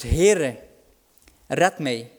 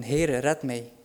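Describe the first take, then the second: First: Loud pleading call; crying out. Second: Said in the usual way. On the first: Acted. Peter sinking, calling out loudly to Jesus. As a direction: cry out to the Lord. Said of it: "die uitroept". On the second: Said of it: "hij heeft Jezus geroepen".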